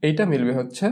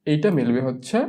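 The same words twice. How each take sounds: The two takes are said the same way.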